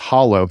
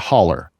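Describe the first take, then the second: First: The word ends with an 'oh' sound. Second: The word ends with an 'er' sound. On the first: This is the standard form of the word. "the actual word is hollow" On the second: This is how people back home say it. "We pronounce it a holler"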